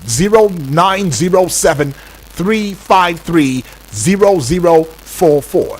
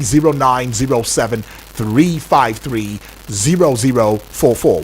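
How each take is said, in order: First: The number is said slowly. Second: The number is said fast.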